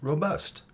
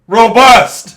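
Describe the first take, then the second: First: It is spoken calmly at normal volume. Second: It is yelled loudly.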